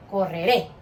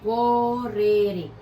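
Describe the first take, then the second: First: Said in the usual way. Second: "Correré" drawn out very slowly; slow teacher's model of "Correré"; stretched final stress. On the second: Shown as a demonstration. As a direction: stretch "Correré" syllable by syllable to show the stressed ending. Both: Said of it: "fuerza de voz en la última sílaba".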